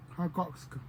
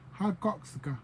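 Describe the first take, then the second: No difference in how they are said.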